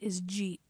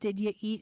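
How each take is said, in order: First: The words are slurred into one syllable. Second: The words are said as separate syllables.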